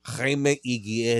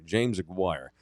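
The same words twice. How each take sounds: First: Jaime Aguirre with Spanish h sound, slow; Spanish name said carefully. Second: James Aguirre with English J in James; wrong name said. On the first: Shown as a demonstration. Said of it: "There we go". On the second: Retold or imitated. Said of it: "Uh, sorry".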